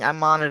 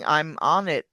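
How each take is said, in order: First: The words are linked smoothly together. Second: The words are said separately, not linked. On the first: The speaker calls it right. "She's linking all of her words and sounding nice and smooth" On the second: The speaker calls it wrong. "she's not saying"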